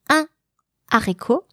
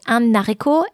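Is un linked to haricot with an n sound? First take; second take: No; Yes. First: No n sound links the two words. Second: An n sound links the two words. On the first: The speaker calls it right. "but un haricot" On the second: The speaker calls it wrong. "you're not supposed to say un haricot"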